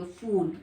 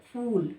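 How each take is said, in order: First: फूल as "fool", air through the teeth; English f sound. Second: फूल with both lips closed, then an aspirated p; lips-together ph. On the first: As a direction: say फूल with f instead of aspirated p. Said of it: "दांतों के बीच से करेंगे". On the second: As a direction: say फूल as "phool", popping the lips. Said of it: "दोनों होंठ मिलाकर". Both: Shown as a demonstration.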